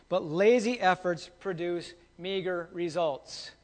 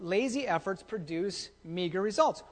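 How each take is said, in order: First: Slow maxim. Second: Said in the usual way. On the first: Shown as a demonstration. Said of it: "remember this". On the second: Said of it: "repeated maxim".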